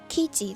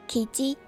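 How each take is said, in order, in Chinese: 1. 第一个音节高，然后音高下降。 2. 第一个音节低，然后音高上升。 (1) "如果重音记错变成kiji 的话" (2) "雉鸡的日文是kiji"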